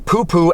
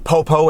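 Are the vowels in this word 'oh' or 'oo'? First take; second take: oo; oh. First: Both syllables have an 'oo' vowel. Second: Both syllables have an 'oh' vowel. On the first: The speaker calls it wrong. "and not the Poo-Poo" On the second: The speaker calls it right. "that is in fact pronounced the Popo"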